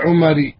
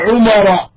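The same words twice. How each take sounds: First: The name ends with an 'i' vowel. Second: The name ends with an 'a' vowel. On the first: The speaker calls it wrong. "ولا تقول نظرت إلى عمر" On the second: The speaker calls it right. "وتقول مثلا نظرت إلى عمر"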